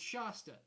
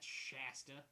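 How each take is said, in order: First: The first syllable does not sound like 'shat'. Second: The first syllable sounds like 'shat'. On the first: The speaker calls it right. "it's Shasta" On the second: The speaker calls it wrong. "not Shasta. Ugh. Sounds like shat"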